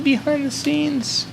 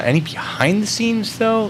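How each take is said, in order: First: Squeaky drawn-out falsetto; very high slow voice. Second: Drawn-out high mock question; high silly voice. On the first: Pretend. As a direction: stretch it way up and slow. Repeats it, higher and slower. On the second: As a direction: stretch it up high and slow. Repeats chat question in silly voice.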